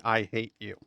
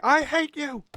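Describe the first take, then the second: First: Said in the usual way. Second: Put-on high, loud shrieked child's cry; screaming kid. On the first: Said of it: "It's a kid saying". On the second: Streamer imitating the film's kid, in a high loud shriek. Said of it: "the kid is definitely saying".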